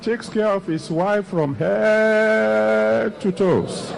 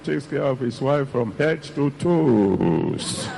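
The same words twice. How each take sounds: First: The word head carries the main stress. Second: The word toes carries the main stress. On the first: Something must be done about her head. "When you put the emphasis on the head" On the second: She wants a new pair of shoes. "If it is a new pair of shoes you want, then you change the prayer"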